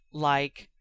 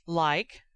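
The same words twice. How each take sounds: First: "Like," level, as an opening word, not a question; flat statement tune. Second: "Like?" with a rising question tune; questioning rise. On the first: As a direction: say "Like," flat and steady, like starting a list. Sirius starts his answer. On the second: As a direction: ask "Like?" as a short curious question, pitch going up at the end. Harry asks a curious question. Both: Acted.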